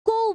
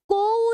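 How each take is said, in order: First: को clipped to a quick light syllable, barely held; short light को. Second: को drawn out with a long heavy o, the way it looks written. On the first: Teacher showing students the right reading, short light को. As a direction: say को fast and light, as it is really spoken. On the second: Teacher showing students the wrong reading, long drawn-out को. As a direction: stretch को into a full long vowel as the wrong reading. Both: Shown as a demonstration. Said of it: "बोल के देखिए".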